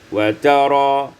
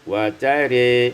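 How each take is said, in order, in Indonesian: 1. Vokal akhir adalah bunyi 'a' yang terbuka. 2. Vokal akhir condong ke arah bunyi 'e'. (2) "wal imalah"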